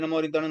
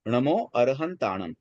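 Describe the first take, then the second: First: The phrase is rushed and said quickly. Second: The phrase is said at a calm, clear pace. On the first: The speaker calls it wrong. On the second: The speaker calls it right.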